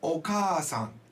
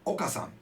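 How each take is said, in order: First: The first a vowel is held long. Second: The first a vowel is kept short. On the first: It means mother. "we lengthen the sound" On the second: It means Mister Oka. "If you didn't say the double sound"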